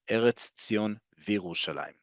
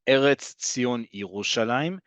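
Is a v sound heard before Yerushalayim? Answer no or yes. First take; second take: yes; no. First: A v sound comes before Yerushalayim. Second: There is no v sound before Yerushalayim. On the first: The speaker calls it right. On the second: The speaker calls it wrong. "It's not"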